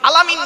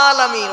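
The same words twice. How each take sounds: First: The first vowel is short, not drawn out. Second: The first vowel is drawn out long. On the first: The speaker calls it wrong. "নয়" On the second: The speaker calls it right. "ওখানে একটা টান আছে"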